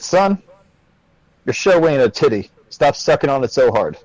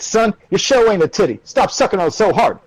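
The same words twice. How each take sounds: First: It is said in a plain normal voice. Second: It is said in a drill-sergeant voice.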